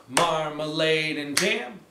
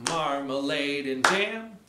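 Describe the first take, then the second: No difference in how they are said.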